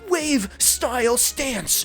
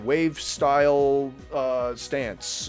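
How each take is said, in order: First: The phrase is said in a dramatic, theatrical voice. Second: The phrase is said in a flat, plain voice. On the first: It is heard as corny voice acting. The speaker calls it wrong. "But when it's like" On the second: It is only read as subtitles. The speaker calls it right. "when I read like, okay"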